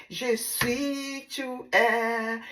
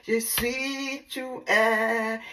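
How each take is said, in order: Both takes have the same delivery.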